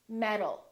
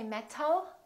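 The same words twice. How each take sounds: First: The T is a soft D-like sound. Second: The T is a clear, sharp T. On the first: The speaker calls it right. "the T changes into a D when it's between two vowels" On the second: The speaker calls it wrong. "We don't say metal"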